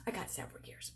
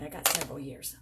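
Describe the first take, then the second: First: Whispered, "I got several years." said under breath; whispered aside. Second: Said in the usual way. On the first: Real, not acted. Vlogger whispering to viewers that she is not fifty yet, breathy aside. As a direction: hush it as a secret.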